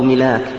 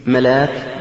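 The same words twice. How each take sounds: First: ملاك said milāk, with an "i" after the m; short i in the first syllable of ملاك, "mi-lāk"; kasra on ملاك. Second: ملاك said malāk, with an "a" after the m; fatha on ملاك. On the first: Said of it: "أو ملاك بالكسر". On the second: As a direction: open first vowel in ملاك, "ma-lāk". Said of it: "ملاك بالفتح". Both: Shown as a demonstration.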